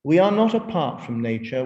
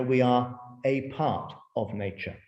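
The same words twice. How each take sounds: First: "apart" said as one joined word; "apart" blended, meaning separate. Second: "a part" split into two words; "a part" stressed on PART, spaced. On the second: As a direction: pause between "a" and "part". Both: Shown as a demonstration.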